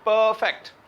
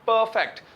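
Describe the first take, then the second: The two takes are said the same way.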